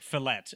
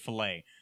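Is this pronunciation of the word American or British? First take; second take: British; American. First: It is pronounced the British way. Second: It is pronounced the American way. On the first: The pronunciation shows a leftover foreign accent. "He would say like fillet" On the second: This is the usual local pronunciation. "instead of fillet"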